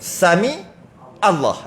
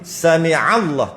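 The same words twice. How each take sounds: First: The throaty ain sound before Allah is left out. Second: A throaty ain sound is pressed before Allah. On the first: The speaker calls it wrong. "Ain tu buang. Jadi sin mim aja" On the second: The speaker calls it right. "Bila ain alif lam lam jadi sami Allah"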